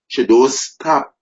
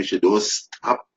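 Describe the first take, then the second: First: She don't stop, higher and louder, hitting don't; rising preacher's emphasis on don't; emphatic repeat. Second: Said in the usual way. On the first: Acted. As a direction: punch don't up high and loud the second time. Preacher repeats line, building up.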